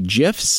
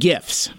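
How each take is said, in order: First: The word begins with a J sound. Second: The word begins with a hard G sound. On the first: "like the peanut butter" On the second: "I'm aware I'm saying it incorrectly"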